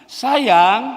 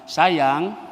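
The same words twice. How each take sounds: First: It is said somewhat higher in pitch. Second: It is said calmly at normal volume.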